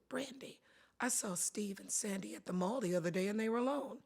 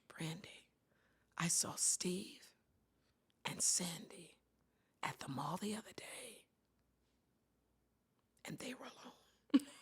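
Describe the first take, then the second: First: It is said in a casual, matter-of-fact tone. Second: It is said in a suggestive, gossipy tone.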